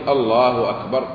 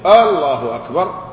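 First: The opening vowel of Allah is short. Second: The opening vowel of Allah is drawn out long. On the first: It is a statement. The speaker calls it right. "فليقول الله أكبر" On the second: It turns the phrase into a question. The speaker calls it wrong. "ولا يهمز فيستفهم"

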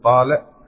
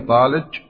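First: The word is said in an Egyptian colloquial accent. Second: The word is said in a Kuwaiti accent. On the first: "باللهجة العامية المصرية مثلا" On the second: "أو الكويتية"

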